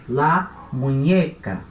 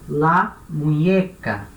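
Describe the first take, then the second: Both takes have the same delivery.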